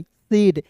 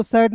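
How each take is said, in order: First: "सेड" with a long e vowel; correct reading. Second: "सैड" with an open ai vowel; wrong reading. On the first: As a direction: say SAID as "सेड", AI sounded as ए. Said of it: "उच्चारण ए के रूप में". ("सेड", ए स्वर वाला सही उच्चारण) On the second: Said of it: "एसएआईडी को सैड नहीं". ("सैड", खुले ऐ स्वर वाला गलत उच्चारण) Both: Shown as a demonstration.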